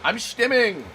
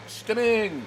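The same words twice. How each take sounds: First: Playful high voice; stimming. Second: Sing-song repeat of stimming; stimming echo. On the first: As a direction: bounce the word up. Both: Real, not acted. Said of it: "you can't stop me from emoting".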